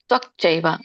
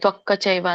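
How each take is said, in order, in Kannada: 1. k ಸ್ವರವಿಲ್ಲದೆ ಕೊನೆಗೊಳ್ಳುತ್ತದೆ. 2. k ನಂತರ ಒಂದು ಹೆಚ್ಚುವರಿ ಸ್ವರ ಸೇರಿಸುತ್ತೇವೆ. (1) "ಅಲ್ಲಿ ವ್ಯಂಜನ ಇದೆ" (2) "ತ್ವಕ್ಕ ಚೈವ ಅಂತ ಬರೋದಿಲ್ಲ"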